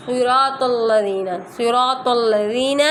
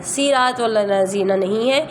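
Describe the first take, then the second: First: صراط with a thick, heavy swad. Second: صراط with a thin s sound; wrong thin s. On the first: Teacher showing the correct heavy swad in صراط. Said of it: "سواد ہے". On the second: Teacher imitating a student's wrong thin s. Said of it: "آپ کریں گی". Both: Shown as a demonstration.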